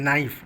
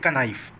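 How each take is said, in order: First: The word starts with an N sound, no K. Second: The word starts with a K sound before N. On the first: The speaker calls it right. "हम लोग क्या बोलते हैं" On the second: The speaker calls it wrong. "नाइफ में कहीं हम लोग ये नहीं बोले"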